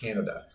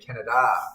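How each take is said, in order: First: The stress is on the first syllable. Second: The stress is on the last syllable. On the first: The speaker calls it wrong. "not Canada" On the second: The speaker calls it right. "There's an accent over the last A, right? So I have to say Canada"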